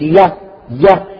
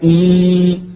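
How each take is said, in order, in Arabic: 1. هو حرف صامت y قبل حركة. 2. هو حركة مد طويلة ee. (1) "الياء غير المدية نقول يا يا" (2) "أما المدية نقول إي"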